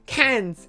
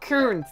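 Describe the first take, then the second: First: The R sound is left out entirely. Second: The R sound is clearly pronounced. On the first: The speaker calls it right. "Like a tin can of fish" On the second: The speaker calls it wrong. "it's not Cairns. Don't pronounce the R"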